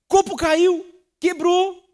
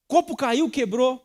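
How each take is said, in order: First: "Copo caiu, quebrou" cried out high and loud in mock exasperation; exaggerated outburst. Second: Said in the usual way. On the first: Shown as a demonstration. Pastor mimicking an irritable person over a broken glass, high loud mock outburst.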